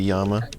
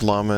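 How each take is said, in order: First: The word begins with a Y sound. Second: The word begins with an L sound. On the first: The speaker calls it right. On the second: The speaker calls it wrong.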